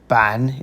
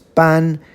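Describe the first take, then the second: First: The syllable is said with a low dipping tone. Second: The syllable is said with a high level tone. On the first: It means board. "third tone" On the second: It means to issue or proclaim. "first tone"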